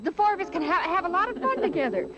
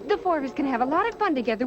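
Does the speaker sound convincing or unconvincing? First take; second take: convincing; unconvincing. First: The line is delivered with more conviction. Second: The line is delivered flatly and unconvincingly. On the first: "I want to try it again" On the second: "Guess I didn't sound very convincing"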